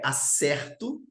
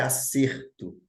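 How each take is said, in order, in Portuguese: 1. É pronunciada igual ao verbo. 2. É pronunciada igual ao substantivo. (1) "ela é um verbo e a pronúncia é acerto" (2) "ela é um substantivo e a pronúncia é acerto"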